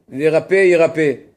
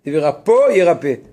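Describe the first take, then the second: First: "Verape" said with an é ending instead of "o", slowly; slip of the tongue. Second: "Verapo" said with the proper o ending, set against "rappé"; corrected reading. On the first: Teacher misreads "Verape" before correcting himself, slow. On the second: Teacher corrects himself to "Verapo", ending in o. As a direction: fix it: "Verapo" ends in a clear o. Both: Shown as a demonstration.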